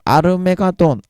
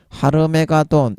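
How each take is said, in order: First: The word begins without an h sound. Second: The word begins with an h sound. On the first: "그 히읗 발음이 묵음으로 되는 수가 있습니다" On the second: "라틴어 헬라어식 발음에 의해서 하르메가돈 이렇게 발음이 되다가"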